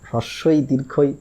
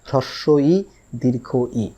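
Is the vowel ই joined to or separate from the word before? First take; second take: joined; separate. First: The vowel ই is joined to each word. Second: The vowel ই is said as a separate word. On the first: The speaker calls it wrong. "এর উচ্চারণ কোনো সময় হ্রস্বই দীর্ঘই, হ্রস্বই দীর্ঘই এরম কোনো কিছু না।" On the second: The speaker calls it right. "এর উচ্চারণ হচ্ছে হ্রস্বই দীর্ঘ ই।"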